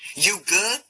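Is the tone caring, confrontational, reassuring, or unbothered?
confrontational. It sounds challenging and confrontational, ready for trouble. Asking whether the other person has a problem. "Is there a problem?"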